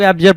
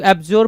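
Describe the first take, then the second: First: एब्जर said with unrounded "-jər" ending; other pronunciation variant. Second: एब्ज्योर said with rounded "-jor" ending; alternative pronunciation. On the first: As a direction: keep the last vowel of एब्जर short and neutral. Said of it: "कुछ लोग एब्जर पढ़ते हैं". (एब्जर, "जर" में छोटे अ की आवाज़ के साथ) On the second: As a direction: round the last vowel of एब्ज्योर to "o". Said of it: "कुछ लोग एब्ज्योर पढ़ते हैं". (एब्ज्योर, "ज्योर" में ओ की आवाज़ के साथ) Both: Shown as a demonstration.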